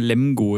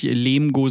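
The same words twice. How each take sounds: First: „Lemgo“ mit offenem e wie Ä; kurzes e. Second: „Lemgo“ falsch wie „Leemgo“; langes e. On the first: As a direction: sprich das e in „Lemgo“ wie in Lamm-Plural Lämmer. (kurzes, offenes e in „Lemgo“) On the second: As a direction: dehn das e in „Lemgo“ wie in Lehm. (langes, geschlossenes e in „Lemgo“) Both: Shown as a demonstration. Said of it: "wird dann kurz gesprochen".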